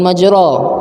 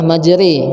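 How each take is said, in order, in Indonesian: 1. Vokal akhirnya bunyi a yang terbuka. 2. Vokal akhirnya bunyi e yang tipis. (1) "jadi bukan majra" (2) "bacanya adalah majri dengan ra yang tipis"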